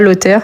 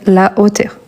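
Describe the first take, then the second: First: The article's vowel is dropped and joined on. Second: The article's vowel is kept, with no linking. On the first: The speaker calls it wrong. "On ne dit pas" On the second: The speaker calls it right. "mais la hauteur"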